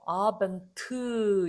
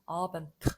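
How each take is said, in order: First: An extra vowel is added after the final t. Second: The word ends sharply on the t, no vowel. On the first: The speaker calls it wrong. "아벤트 이러지 마시고요" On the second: The speaker calls it right. "이렇게 혀로 차버리고"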